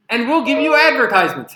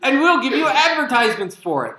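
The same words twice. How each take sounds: First: Loud, higher, mock-generous announcement; sarcastic punchline. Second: Loud, higher, laughing through the words; laughing punchline. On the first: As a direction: announce the ads like a grand gift. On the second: Pretend. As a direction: repeat the joke while laughing at it.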